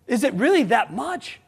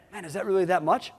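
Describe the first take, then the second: First: Incredulous echo. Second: Quietly doubting, is it really that much; softer doubting question. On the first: Owner echoing a doubter's question, incredulous. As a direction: repeat the doubt back, higher and mocking. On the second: Colleague doubting the ad budget, softly asking. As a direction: ask it softly, half unsure. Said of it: "Someone said to me the other day". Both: Retold or imitated.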